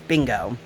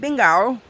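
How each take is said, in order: First: The word is said in an American accent. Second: The word is said in an Australian accent. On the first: This is how Americans say it. "if you're Ameri- American, say bingo as bingo" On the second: The child copies how the cartoon characters say it. "she's totally saying it with the accent because that's how they say it"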